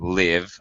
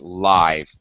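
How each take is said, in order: First: It is pronounced the way the verb sounds. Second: It is pronounced the way the adjective sounds. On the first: It means to be alive or reside. The speaker calls it wrong. "not live" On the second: It describes something performed in real time. The speaker calls it right. "as an adjective, it's live"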